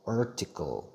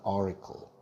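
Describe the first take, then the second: First: It is said plainly, without a strong American style. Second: It is said in a smooth, American-style pronunciation.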